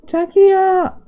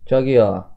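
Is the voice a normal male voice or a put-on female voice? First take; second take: female; normal male. First: It is said in a put-on female voice. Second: It is said in a normal male voice.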